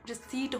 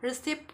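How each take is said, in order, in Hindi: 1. अंतिम t से पहले p साइलेंट होता है। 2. अंतिम t से पहले p बोला जाता है। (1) "होता है" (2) "नहीं होता"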